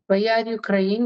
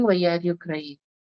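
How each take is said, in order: First: Said in the usual way. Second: Tender slow mother. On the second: Retold or imitated. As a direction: gently draw the child out, very slowly. Mother asks crying son. (ಮಗನನ್ನು ಸಮಾಧಾನಿಸುತ್ತಾ ನಿಧಾನವಾಗಿ ಮೃದುವಾಗಿ ಕೇಳುವ ತಾಯಿ)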